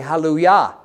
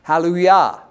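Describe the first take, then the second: First: The word has a Hebrew pronunciation. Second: The same.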